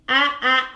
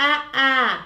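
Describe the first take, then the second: Both takes have the same delivery.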